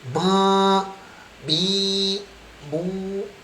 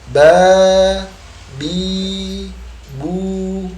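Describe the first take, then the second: First: The syllables are spoken through the nose. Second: The syllables are spoken without nasal sound. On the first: The speaker calls it wrong. "artinya kita masih menggunakan suara hi, hidung" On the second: The speaker calls it right. "kita membacanya tanpa suara hi, hidung"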